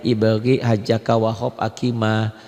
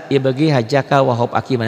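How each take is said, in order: First: Letter groups recited slowly and lower. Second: Said in the usual way. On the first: Shown as a demonstration. Teacher reciting the qomariah letters for students, slowly. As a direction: take "ibagi, hajaka, wahab, akima" slowly, group by group. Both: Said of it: "Nanti pelan-pelan".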